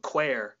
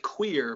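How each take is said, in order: First: "queer" said as "kwair"; Irish slang pronunciation. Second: Said in the usual way. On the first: Shown as a demonstration. Irishman teaching slang for strange, "queer" pronounced "kwair". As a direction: say "queer" with an open Irish vowel, rhyming with "square". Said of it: "It's, like, spelled differently". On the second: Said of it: "Not like queer".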